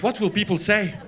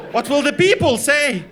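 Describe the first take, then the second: First: Mildly scandalized worry; understated mock horror; fretting mother. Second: Louder, higher, drawn-out mother's wail; slow, loud mock despair; mock outcry. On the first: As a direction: fret about it at normal volume. Mother fretting, first take. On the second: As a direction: cry it out in hammed-up horror. Mother fretting, escalated repeat.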